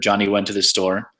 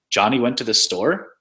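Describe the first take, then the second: First: The pitch stays flat like a statement. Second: The intonation makes it sound like a question. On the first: It reports a fact. "statements, which are just kind of flat" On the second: It asks whether this happened. "There's questions like"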